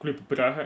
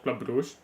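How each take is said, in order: First: The city name has its Belgian Dutch pronunciation. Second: The city name has its English pronunciation. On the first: "I am Belgian, so I say Club Brugge" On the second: "English pronunciation of Bruges"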